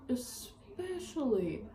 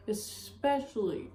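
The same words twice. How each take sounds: First: "especially" drawn out slowly and quietly; emphatic repeat. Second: Said in the usual way. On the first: Real, not acted. Telling him off, slow stretched emphasis.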